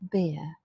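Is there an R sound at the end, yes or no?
no. The word ends with a schwa and no R sound. This is the British pronunciation. "after front vowels, the R causes a schwa in British English. Not an R, but a schwa"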